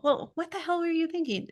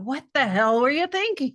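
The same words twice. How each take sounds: First: Higher, curious asking, not scolding; an honest adult-to-adult question; genuine question to an adult. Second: Put-on louder, talking down to a child; a mild mock parental scold, pressed and loud; scolding parent to a kid. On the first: Retold or imitated. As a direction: ask it like you really want to know. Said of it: "to the adult". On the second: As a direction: let the angry parent come out. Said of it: "the parent comes out".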